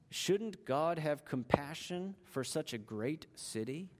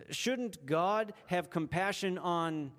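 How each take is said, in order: First: Said in the usual way. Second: Slowly, leaving the end open for the blank; slow preacher's setup with a falling end; slow, leading pause. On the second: Shown as a demonstration. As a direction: draw it out so listeners fill in the gap. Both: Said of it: "fill in the blank?".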